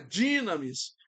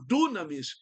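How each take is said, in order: First: The first vowel is an 'ee' sound. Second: The first vowel is an 'oo' sound. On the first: The speaker calls it right. "mas é dínamis" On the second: The speaker calls it wrong. "Muita gente fala dunamis"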